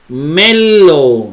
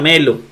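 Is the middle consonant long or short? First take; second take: long; short. First: The middle consonant is held long. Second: The middle consonant is short and single. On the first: The speaker calls it wrong. "No se pronuncia así" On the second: The speaker calls it right. "Se pronuncia melo"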